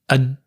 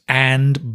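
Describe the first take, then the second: First: The word is reduced with a weak vowel. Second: The word has a full vowel.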